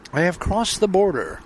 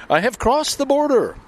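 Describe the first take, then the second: First: Said in the usual way. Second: Higher, triumphant declaration; excited announcement. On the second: Real, not acted. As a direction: announce it like a victory.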